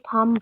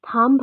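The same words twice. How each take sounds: First: The word ends with no B sound. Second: The word ends with an audible B sound. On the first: The speaker calls it right. "हम लोग इसको थंब बोलते हैं, इसमें हमारे पास बी जो है वो साइलेंट होता है" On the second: The speaker calls it wrong. "थंब थंब हम लोग नहीं बोलते"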